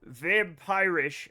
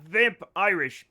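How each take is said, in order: First: It sounds like a single word, vampirish. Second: It sounds like two words, vamp plus Irish. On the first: The speaker calls it right. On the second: The speaker calls it wrong.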